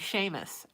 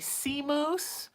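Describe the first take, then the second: First: The name is said the usual way, unlike 'sea moose'. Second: The name is said like the words 'sea moose'. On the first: The speaker calls it right. "I had a cat named Seamus" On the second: The speaker calls it wrong. "people would say, Sea Moose?"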